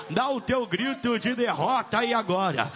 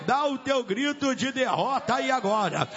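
No difference in how they are said.

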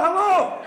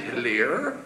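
First: Very high-pitched, agitated "hello"; squeaky-high Glasgow caller's hello; frantic Glasgow chap. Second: Low, soft questioning hello; composed operator, voice dropped low; telephone operator. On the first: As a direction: call down a dead phone line in comic desperation. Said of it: "There was a young Glasgow chap". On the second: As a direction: answer the call calmly and quietly. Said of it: "he dialed the operator". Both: Acted.

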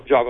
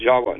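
First: Java with a V sound, the English way; plain English V in "Java"; English pronunciation. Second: Jawa with a W sound, as Indonesians say it; Indonesian pronunciation. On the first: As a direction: say "Java" with V, not W. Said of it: "Java like we do". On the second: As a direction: say "Jawa" with W instead of V. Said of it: "Indonesians will pro-, pronounce it Jawa". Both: Shown as a demonstration.

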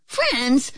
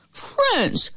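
First: High, puzzled piglet query; questioning. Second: Crying out. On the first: Pigs ask as the wolf loses grip, high puzzled question. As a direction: ask it in mild disbelief. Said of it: "the pigs asked". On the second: Wolf cries out as he starts to slip, very high exclamation. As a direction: cry it out high, then fall. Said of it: "cried the wolf". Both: A narrator's reading.

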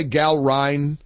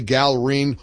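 First: "Gal Ryan" with the last part like RYAN; "Gal Ryan" with a long i in the second word; alternative pronunciation. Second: "Gal Reen" with the last part like REEN; "Gal Reen" with a long ee in the second word; alternative pronunciation. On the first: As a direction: say "Gal Ryan", rhyming the end with line. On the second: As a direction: say "Gal Reen", rhyming the end with green. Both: Shown as a demonstration. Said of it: "some people say".

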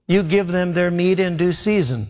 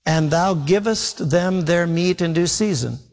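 First: Said in the usual way. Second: Put-on slow, solemn reading of the old wording; scripture reading. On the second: Shown as a demonstration. Preacher reading the verse aloud to the congregation, slow and solemn. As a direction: read the King James line slowly. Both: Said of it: "it says".

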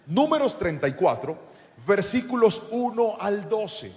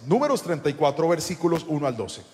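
First: Measured, spaced-out citation. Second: Said in the usual way. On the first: Real, not acted. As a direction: give listeners time to write it down. Dictates a citation to write down.

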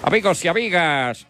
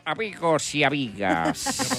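First: Higher, booming ringside announcer; bullring announcer calling the crowd. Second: Softer, slow drawn-out announcer call; announcer drawing out the greeting. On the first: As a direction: call out to the whole arena. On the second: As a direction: stretch it out, softer. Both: Acted. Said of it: "el animador dio".

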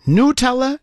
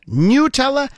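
First: Nutella said as "noo-TELL-uh" with a questioning rise; questioning pronunciation. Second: Nutella tried again as "noo-TELL-uh", held level; alternative pronunciation. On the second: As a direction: test Nutella once more, flat and unsure. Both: Shown as a demonstration. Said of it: "How do you even say it?".

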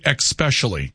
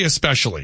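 First: "especially" with an added k, ek-SPESH-uh-lee; "especially" starting like "ex"; mistaken pronunciation. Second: "especially" with a clean s, ess-PESH-uh-lee; "especially" starting ess, not ex; standard pronunciation. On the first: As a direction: put an x in "especially". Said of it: "some people that say especially". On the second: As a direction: say "especially" without any k. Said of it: "I say especially". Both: Shown as a demonstration.

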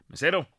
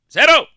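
First: Said in the usual way. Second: Sudden high, very loud yell; shouting. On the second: Acted. Joke's diner calls the waiter in a restaurant, shouting. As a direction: bellow for the waiter, pitch leaping up. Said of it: "No grite".

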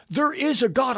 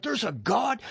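First: "There IS a God" as a firm statement; emphatic assertion. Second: "There's a God?" as a softer question, rising at the end; astonished question. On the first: Friends insisting the movie really happened, emphatic assertion. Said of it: "They're saying, "This really happened". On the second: Seventeen-year-old hearing of God for the first time, astonished question. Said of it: "I'm like". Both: Retold or imitated.

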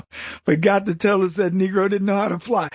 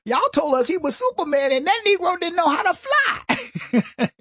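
First: Said in the usual way. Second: High stand-up comic punchline voice; imitating Cat Williams. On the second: Host quotes a comedian's joke about Obama, high comic voice. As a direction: deliver it high, like a comic on stage. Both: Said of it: "He said".

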